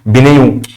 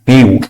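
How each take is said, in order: First: The word begins with a p sound. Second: The word begins with an n sound. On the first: The speaker calls it wrong. "ما تقوليش بنيو" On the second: The speaker calls it right. "البي دي سايلنت ما تتقالش"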